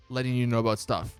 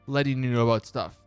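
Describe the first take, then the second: No difference in how they are said.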